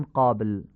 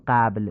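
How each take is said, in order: First: 'قابل' as 'qobl', dark short back vowel; full-mouthed 'qo' in 'قابل'; heavy Arabic fatha. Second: 'قبل' as 'qabl', thin front 'a'; Persian-style light vowel in 'قبل'; wrong light fatha. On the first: Teacher showing the Arabic way, heavy 'قابل'. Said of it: "میگیم". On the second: Teacher showing what we don't say, thin 'قبل'. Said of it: "نمیگیم". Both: Shown as a demonstration.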